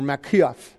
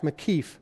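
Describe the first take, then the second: First: "makiaf" with ee-ah in the last syllable; alternative pronunciation. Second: "makif" with a plain ee in the last syllable; first pronunciation variant. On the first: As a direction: say "makiaf", splitting the ending into kee-af. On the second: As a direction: say "makif", ending simply in -keef. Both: Shown as a demonstration. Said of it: "however you want to say it".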